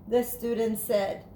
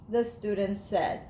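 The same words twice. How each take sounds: The two takes are said the same way.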